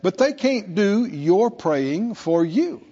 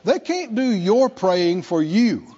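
First: It is said slowly. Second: It is said at normal speed.

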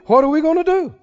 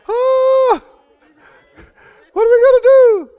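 First: It is said in a normal voice. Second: It is said in a high, panicky voice.

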